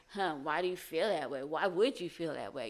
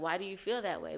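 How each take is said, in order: First: A touch of a prying, accusing edge. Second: Said in the usual way. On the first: Shown as a demonstration. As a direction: ask why as if blaming them. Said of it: "they might hear". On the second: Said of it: "But to them, they might hear".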